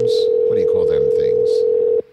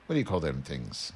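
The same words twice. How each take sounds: First: Loud question. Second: Said in the usual way. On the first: Real, not acted.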